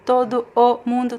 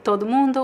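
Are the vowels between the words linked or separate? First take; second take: separate; linked. First: The two vowels are said as separate sounds. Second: The two vowels merge into one linked sound.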